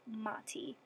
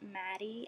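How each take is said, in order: First: The middle consonant sounds like a clear T. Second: The middle consonant sounds like a soft D. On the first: The speaker calls it right. "It's Mati, like Mateus" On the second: The speaker calls it wrong. "some of you have been pronouncing it Maddie, and that is wrong"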